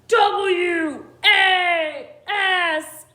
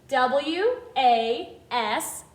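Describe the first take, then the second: First: It is spelled in a growly monster voice. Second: It is spelled in a normal speaking voice.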